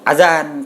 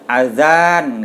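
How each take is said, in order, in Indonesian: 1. Vokal setelah z pendek. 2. Vokal setelah z panjang. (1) "pendek, za-nya" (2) "Jadi panjang azan gitu"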